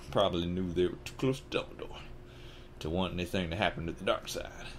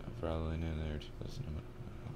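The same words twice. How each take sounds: First: Said in the usual way. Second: Barely audible whispered read-through. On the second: Real, not acted. Reader going back over the line, whispered. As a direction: whisper it to yourself.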